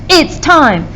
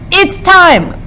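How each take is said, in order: First: Both words are stressed, one after another. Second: Only the word time is stressed. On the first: The speaker calls it wrong. "That's too hard to have two stresses right next to each other" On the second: The speaker calls it right. "Time is a word that sounds like it's going to be stressed"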